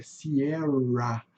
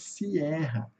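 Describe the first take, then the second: First: Sierra with a strong caipira R; English sierra. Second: Said in the usual way. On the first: Shown as a demonstration. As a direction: press hard on the R in sierra. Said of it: "Um R bastante acentuado". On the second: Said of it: "Nós falamos sierra".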